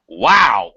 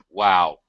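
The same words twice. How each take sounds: First: It is said with lively, varied intonation. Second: It is said with flat, unvaried intonation. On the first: The speaker calls it right. "we use a lot more intonation" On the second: The speaker calls it wrong. "We don't say wow"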